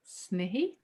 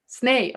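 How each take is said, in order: First: The name is said with two syllables. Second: The name is said with one syllable. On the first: The speaker calls it wrong. "Am I pronouncing that right? Almost" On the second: The speaker calls it right. "It's Sneh"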